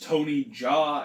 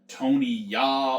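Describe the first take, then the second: First: The surname begins with a j sound. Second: The surname begins with a y sound. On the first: "I hope it is Tony Jaa" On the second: "not like Tony Ya"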